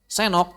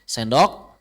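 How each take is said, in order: First: The d sound before the o is dropped. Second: The d sound before the o is pronounced. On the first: This is how it is said around Bandung. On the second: This is the original form.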